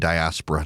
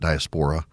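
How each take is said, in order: First: The second syllable sounds like 'ass'. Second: The second syllable does not sound like 'ass'. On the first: The speaker calls it right. "I should say diaspora" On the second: The speaker calls it wrong. "not diaspora"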